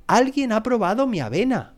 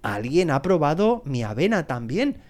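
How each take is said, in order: First: Storybook papa bear's indignation, pitched high; mock roar. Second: Lightly voiced mama bear, lifting at the end. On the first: Papa bear finding his oatmeal tasted, lightly roared. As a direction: exclaim it high, with a mild roar. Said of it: "rugió el oso papá". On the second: Mama bear finding her oatmeal tasted too, mildly voiced. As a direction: say it milder, with a rising finish. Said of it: "dijo la osa mamá". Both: A narrator's reading.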